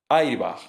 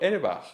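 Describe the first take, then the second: First: It is pronounced with Spanish sounds, as spelled. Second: It is pronounced with English sounds. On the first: The word is treated as adapted into Spanish. The speaker calls it right. "tal y como mi padre lo leería" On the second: The word is treated as an unadapted foreign word. The speaker calls it wrong. "pero no lo pronuncio airbag, como si fuera crudo"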